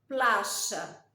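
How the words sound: The y is said the River Plate way. "Argentina, Uruguay"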